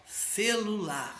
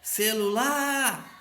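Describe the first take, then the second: First: Said in the usual way. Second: Ce-lu-LAAAR, devagar no final; última sílaba forte. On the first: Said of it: "a última sílaba é a mais forte". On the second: Shown as a demonstration. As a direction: chame Celular esticando o LAR. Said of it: "pronuncia com mais força". (Celular com LAR demorado)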